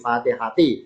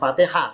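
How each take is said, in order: First: The word ends with a full 'ati' sound. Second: The word ends with a clipped 'ah' sound. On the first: The speaker calls it right. "tapi Fatihati" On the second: The speaker calls it wrong. "Jangan Fatihah"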